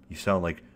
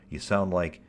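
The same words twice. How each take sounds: The two takes are said the same way.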